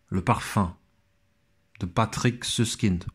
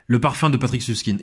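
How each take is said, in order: First: It is said in a silly put-on accent. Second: It is said in a normal voice.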